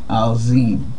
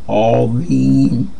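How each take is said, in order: First: The middle consonant is a plain Z. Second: The middle consonant is not a plain Z. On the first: The speaker calls it wrong. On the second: The speaker calls it right.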